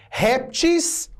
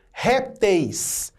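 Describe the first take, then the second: First: "répteis" said as "réptis", ending in a plain i; "répteis" pronounced RÉP-tis; plural in -is. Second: "répteis" with a full "-teis" diphthong ending; "répteis" pronounced RÉP-teis, slowly; plural in -eis. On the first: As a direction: end "répteis" with "-tis", no diphthong. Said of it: "pode fazer o plural com is". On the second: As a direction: end "répteis" on a clear "eis". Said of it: "faria o plural com eis". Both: Shown as a demonstration.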